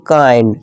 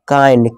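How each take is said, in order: No difference in how they are said.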